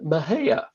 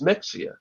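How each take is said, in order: First: The middle is said with an 'h' sound. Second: The middle is said with a 'ks' sound. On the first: This is how local people say it. "the locals pronounce it Mahia" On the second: This is how the spelling suggests it is said. "you look at it, you think, okay, that's Mexia"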